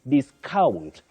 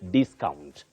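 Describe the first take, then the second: First: The stress is on the second syllable. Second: The stress is on the first syllable. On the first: It is used as a verb. "The stress is on the second syllable" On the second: It is used as a noun. "discount with a stress at the onset"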